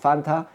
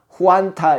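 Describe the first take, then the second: First: It starts with a lip-teeth f sound. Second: It starts with a breathy 'hu-an' sound. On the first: This is the original form of the name. "환타가 여기 보면 판타거든요. 사실 판타" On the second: This is how Japanese speakers render the name. "일본 사람이 파 발음이 안 되니까 후안타 이렇게 하다가"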